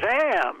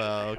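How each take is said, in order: First: It is said loudly, like an exclamation. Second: It is said plainly, without exclamation.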